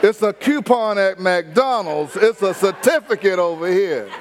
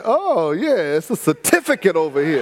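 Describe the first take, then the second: First: Laughing demo of fancy talk. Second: Laughing while quoting. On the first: Shown as a demonstration. Pastor demonstrating restaurant talk to the congregation, laughing. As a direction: show the fancy word with a laugh. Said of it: "I'm learning to talk". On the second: Retold or imitated. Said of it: "I said".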